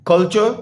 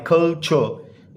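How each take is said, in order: First: Said in the usual way. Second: culture drawn out as two syllables, कल–चर. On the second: Shown as a demonstration. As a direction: break culture slowly into कल and चर. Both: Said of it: "टू syllable word है".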